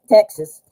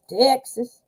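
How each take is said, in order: First: Said in the usual way. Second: "Texas" drawn out in a mock Texas drawl; playful Texan imitation on "Texas"; Texas accent. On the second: Shown as a demonstration. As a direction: say "Texas" with an exaggerated country twang. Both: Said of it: "like, country sounding".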